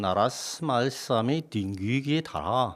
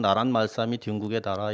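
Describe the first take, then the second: First: It is read with older sounds and rhythm. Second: It is read with modern Korean sounds and rhythm. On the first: This is how the text was read in the fifteenth century. "실제로는 그 십오 세기 정도에 하면" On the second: This is how people read the text today. "우리는 나란 말싸미 뒷국의 나라 이렇게 하지만은"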